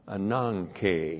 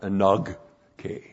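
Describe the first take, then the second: First: The middle consonant is a nasal ng sound. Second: The middle consonant is a hard g sound. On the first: The speaker calls it right. "this one is pronounced like it's an N" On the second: The speaker calls it wrong. "not anogke"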